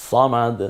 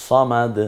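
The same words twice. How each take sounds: No difference in how they are said.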